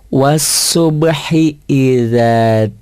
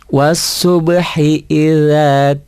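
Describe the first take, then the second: No difference in how they are said.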